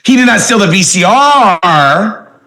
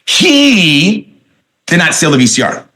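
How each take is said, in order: First: The stress falls on the word VCR. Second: The stress falls on the word he. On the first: He stole something else instead. "that means it was the television he stole" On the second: Someone else stole it. "that means somebody else stole it"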